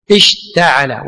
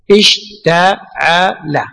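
First: Said in the usual way. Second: Slow, drawn out. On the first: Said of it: "واشتعل الرأس شيبا". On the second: Shown as a demonstration. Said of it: "صح؟".

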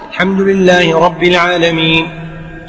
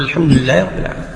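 First: Slow, drawn-out verse on a level tone; stretched, steady recitation; imam reciting. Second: Low, fast echo in the imam's pause; hurried, lower repetition; follower repeating quickly. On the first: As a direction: recite unhurriedly as the leading imam. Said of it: "إذا كنت تقرأ خلف الإمام". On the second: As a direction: slip the verse in quickly after the imam. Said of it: "في سكتات". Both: Shown as a demonstration.

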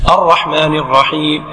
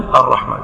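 First: Slow, low recitation; imam's lengthened lead line; imam reciting. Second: Low, short echo; follower's subdued response; follower repeating. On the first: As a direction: draw out the verse as the imam. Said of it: "يتابع إمامه". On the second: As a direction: repeat briefly after the imam, lower. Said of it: "أنت تقول". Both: Shown as a demonstration.

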